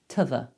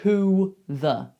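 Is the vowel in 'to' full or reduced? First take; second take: reduced; full. First: The word 'to' is reduced to a schwa. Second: The word 'to' has a full vowel. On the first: The speaker calls it right. "We most commonly say" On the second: The speaker calls it wrong. "We rarely say"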